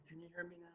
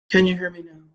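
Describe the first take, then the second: First: Very soft and hushed; barely above a breath, testing the mic; speaking softly. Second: Said in the usual way. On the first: Shown as a demonstration. Testing the mic for viewers, speaking very softly. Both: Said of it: "I'm gonna speak really softly".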